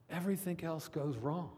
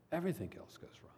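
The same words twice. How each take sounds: First: Said in the usual way. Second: Quick, near-whispered echo; hushed repeat. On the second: Real, not acted. Preacher repeating his warning to the congregation, hushed.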